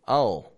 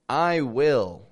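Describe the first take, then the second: First: A quick clipped word with the vowel dropped. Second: Two full words with a full vowel in will. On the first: The speaker calls it right. "drop the vowel from the word" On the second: The speaker calls it wrong. "Instead of saying"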